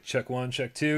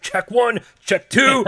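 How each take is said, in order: First: Said in the usual way. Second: Higher, louder barked mic check. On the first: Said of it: "Dave's like". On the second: Retold or imitated. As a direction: bark it like a drill sergeant. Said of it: "You're like".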